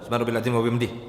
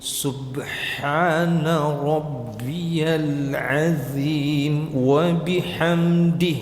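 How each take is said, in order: First: The phrase is recited very quickly and rushed. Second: The phrase is recited slowly and deliberately. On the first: "bukan pula hadr" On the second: "Tahqiq itu"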